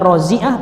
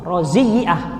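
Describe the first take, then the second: First: The y sound is single, not doubled. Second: The y sound is doubled and held longer. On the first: "bisa dibaca rozi'ah" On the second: "iya-nya tasdid"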